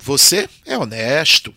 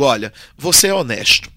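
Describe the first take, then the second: First: "Você é honesto" with a rising, doubting tune on "é"; questioning tune. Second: "Olha, você é honesto" as a flat sincere statement, falling tune on "é"; sincere assertion, tune falling on "é". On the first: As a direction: make it sound like a doubtful question. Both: Shown as a demonstration. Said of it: "Já fiz toda a diferença".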